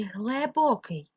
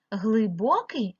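First: Глибокий said with е, as глебокий; глибокий slowly, first vowel turned to е. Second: Глибокий with a clear и in гли; Глибокий, first vowel и rather than е. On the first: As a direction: say гле at the start of глибокий. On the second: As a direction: say Глибокий slowly as гли-бокий. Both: Shown as a demonstration. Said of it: "голосними е чи и".

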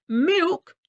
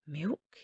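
First: High, loud outraged MILK; incredulous farmer's shout; roared. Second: Low, musing question; wondering aloud, softly rising; thoughtful. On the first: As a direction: roar MILK in disbelief. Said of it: "roared the farmer". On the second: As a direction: ponder the word MILK quietly. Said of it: "he said thoughtfully". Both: A narrator's reading.

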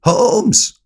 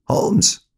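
First: High, loud, insistent shout; louder repeated call. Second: High-pitched first call. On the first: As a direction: shout the name to wake him. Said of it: "rief er von neuem". (lauter, hoher Ruf) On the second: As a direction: call his name to rouse him. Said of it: "rief er". (hoher Ruf) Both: A narrator's reading.

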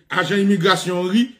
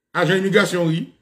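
Both takes have the same delivery.

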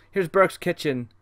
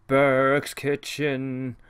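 First: Said in the usual way. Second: Burke's kitchen stretched very slowly; drawn out slowly. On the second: Shown as a demonstration. Host rereads the room name, Burke's kitchen, dragged out slowly. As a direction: linger on each word of Burke's kitchen.

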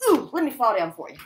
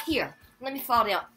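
First: Higher, much louder put-on "Ooh, let me fall down for you"; hammed-up fall. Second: Higher, louder "let me fall down", teasing; taunting the viewers; mock offer. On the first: Vlogger hams up a fake fall for viewers, theatrical. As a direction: camp it up for the audience. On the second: Vlogger taunts viewers who want an accident, mocking.

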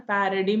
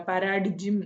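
First: "പാരഡിം" ending in dim, no g; silent G. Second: "പാരാഡിജിം" with an extra jim syllable at the end; sounded G. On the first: Teacher showing how we say it, silent G in "പാരഡിം". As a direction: say "പാരഡിം" with the g left out. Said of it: "എന്നേ നമ്മൾ പറയാം". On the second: Teacher showing what we don't say, G sounded in "പാരാഡിജിം". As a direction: wrongly voice the g as j in "പാരാഡിജിം". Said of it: "എന്ന് നമ്മൾ പറയില്ല". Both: Shown as a demonstration.

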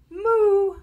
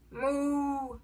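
First: High, loud moo; cow moo. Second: Softer, drawn-out moo; cow moo. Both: A narrator's reading. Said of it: "He can sound like a cow".

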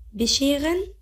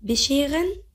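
Both takes have the same delivery.

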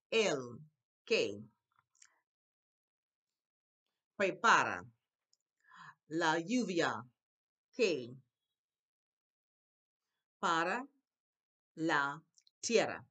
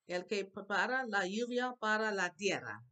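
First: Loud, separated words with a pause after each; word-by-word reading. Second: Said in the usual way. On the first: Shown as a demonstration. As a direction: model the Spanish one word at a time. Teacher reads Spanish word by word.

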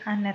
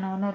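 First: Honor said with a silent H, AH-ner; right pronunciation. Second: Honor said with a sounded H, HO-nor; mock the mistake honor with the H pronounced; wrong pronunciation. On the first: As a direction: say honor without the H. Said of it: "tapi honor ya". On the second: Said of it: "bacanya bukan honor". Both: Shown as a demonstration. Teacher correcting the H in honor.

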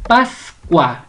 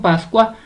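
First: "Pascua" cut in two, PAS-cua, stress on "Pas"; split into syllables. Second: Said in the usual way. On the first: Shown as a demonstration. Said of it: "la sílaba tónica es paz". ("Pascua" separada en sílabas, con fuerza en "Pas") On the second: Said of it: "usted la va a separar".

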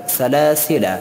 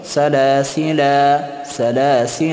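First: سلاسل with short final -la; سلاسل with the last alif silent; corrected short ending. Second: سلاسل with long final -laa; pausal reading. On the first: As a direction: finish سلاسل on a quick a. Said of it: "نه خیر". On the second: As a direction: hold the last alif of سلاسل. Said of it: "اما در حالت وقف تلفظ می شود". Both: Shown as a demonstration.

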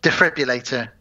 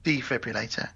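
First: "Defibrillator" said cleanly with a short first syllable; corrected pronunciation. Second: Softer "Defibrillator" with a long DEE at the start; deliberate pronunciation. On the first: Co-host corrects garbled word, "Defibrillator" said cleanly with short first syllable. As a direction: say "Defibrillator" in one tidy run. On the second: Co-host repeats correction, softer "Defibrillator" opening on a long dee. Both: Shown as a demonstration.

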